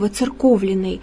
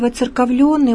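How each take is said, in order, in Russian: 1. Ударение падает на гласный 'o'. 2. Ударение падает на гласный 'yo'. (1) "мы должны поставить его на «о»" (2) "ставит две точки над буквой «е», «ё»"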